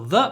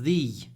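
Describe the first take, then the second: First: The word is said with a short 'uh' vowel. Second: The word is said with a long 'ee' vowel. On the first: This is the form used before a consonant. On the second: This is the form used before a vowel.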